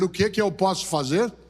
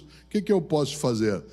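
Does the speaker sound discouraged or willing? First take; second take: willing; discouraged. First: It sounds willing, as a real, open question. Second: It sounds discouraged and trails off weakly.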